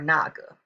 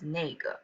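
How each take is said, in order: First: The first syllable has an 'ah' vowel. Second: The first syllable has an 'eh' vowel. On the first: "naga is more formal and just sounds better" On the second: "people may pronounce it as nega"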